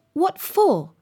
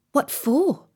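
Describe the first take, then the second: First: "What for" high, slow and distinct; emphatic repeat. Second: Raised, questioning pitch; curious question. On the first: Alice corrects the Rabbit, repeating "What for" emphatically. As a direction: stretch "What for" out, pitched up. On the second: Alice asks the Rabbit why, curious. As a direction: ask it simply in a higher voice. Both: A narrator's reading.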